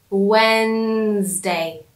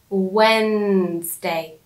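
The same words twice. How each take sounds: No difference in how they are said.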